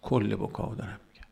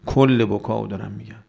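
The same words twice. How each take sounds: First: Quiet repeat. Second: "کل" hit firmly at the start; stress on کل. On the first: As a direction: say it softly, as a settled aside. Same clarification repeated quietly. (تکرار آرام و با صدای بم) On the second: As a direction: punch "کل" to mark the whole scope. Clarifies scope, then repeats it. (تأکید محکم روی «کل») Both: Real, not acted.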